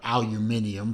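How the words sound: It is said in the European way.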